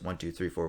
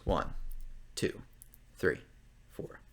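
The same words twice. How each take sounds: First: The counting is fast. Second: The counting is slow.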